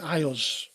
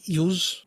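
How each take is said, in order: First: The name is said with two syllables, like eye-oss. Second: The name is said as one syllable, like yooz.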